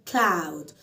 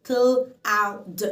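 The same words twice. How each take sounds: First: Said in the usual way. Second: "cloud" split into cl, ow, d with gaps; sound by sound. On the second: Shown as a demonstration. Teacher sounds out cloud for learners, in separate pieces. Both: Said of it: "فأنا مقسمة مقاطع".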